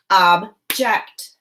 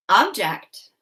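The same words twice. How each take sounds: First: "Object" split as ob, pause, ject; chopped syllables. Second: Said in the usual way. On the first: Shown as a demonstration. Teacher chops "Object" for pupils to blend, syllable by syllable. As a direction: say "Object" as two detached syllables. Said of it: "I'm gonna chop the syllables in each word". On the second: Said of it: "you're gonna say what our word is".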